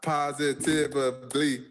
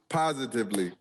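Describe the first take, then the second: First: The word is said with five syllables. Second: The word is said with four syllables. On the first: The speaker calls it wrong. "not not not positively" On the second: The speaker calls it right. "It's four syllables, not five"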